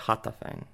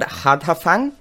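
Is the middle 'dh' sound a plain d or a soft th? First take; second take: soft th; plain d. First: The middle 'dh' is a soft th sound. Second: The middle 'dh' is a plain d sound. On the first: The speaker calls it right. "It's like a soft TH" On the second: The speaker calls it wrong. "I have no idea how you pronounce that, but I just gave it a crack"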